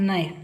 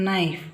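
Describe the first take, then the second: Both takes have the same delivery.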